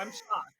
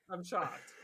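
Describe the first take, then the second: First: High, mock-shocked gasp. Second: Low, flat deadpan repeat. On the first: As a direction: play up the shock. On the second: Pretend. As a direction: say it dry, unimpressed.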